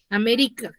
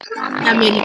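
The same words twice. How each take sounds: First: The stress is on the next-to-last syllable. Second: The stress is on the last syllable. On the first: "digo que es una palabra grave... está en la penúltima sílaba" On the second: "Si yo digo que está en la K"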